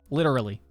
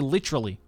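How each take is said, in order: First: It is said with an American accent. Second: It is said with an Australian accent. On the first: "to an American is pretty normal" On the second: "we say literally"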